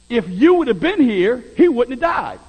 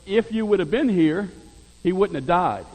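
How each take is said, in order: First: It is said angrily and resentfully, as Martha. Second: It is said in a plain, neutral tone.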